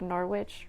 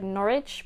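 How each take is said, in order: First: The word is said with the w sounded. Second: The word is said with a silent w. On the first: This is how the name is written. "but it's spelled like Norwich" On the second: This is how the name is actually said. "it'd be pronounced like Norwich"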